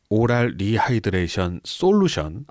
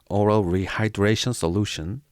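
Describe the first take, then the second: First: It is said with Korean-style pronunciation. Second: It is said with English-style pronunciation.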